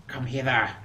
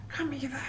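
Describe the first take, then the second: First: Said in the usual way. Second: High, breathy creepy whisper of Come hither. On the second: Pretend. Sniper luring enemy.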